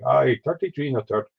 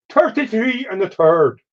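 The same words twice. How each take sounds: First: Said in the usual way. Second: "Thirty-three and a third" in a much higher, slow mock Irish accent. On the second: Quoting Dutch's classic line in a mock Irish accent. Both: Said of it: "That's a typical Irish".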